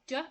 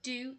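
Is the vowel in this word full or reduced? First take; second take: reduced; full. First: The vowel is reduced to a weak schwa. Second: The vowel is said in its full form. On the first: It is used as a helping verb. "duh as the auxiliary" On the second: It is used as a main verb. "do as the main verb"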